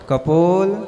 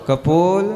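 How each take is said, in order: No difference in how they are said.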